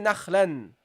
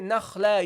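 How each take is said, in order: First: The word ends with an added n sound. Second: The word ends in a plain vowel. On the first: The speaker calls it wrong. "you don't say nakhlan" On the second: The speaker calls it right. "You say nakhla, you ignore the tanween"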